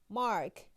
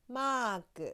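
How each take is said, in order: First: It is said the English way. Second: It is said the Japanese way.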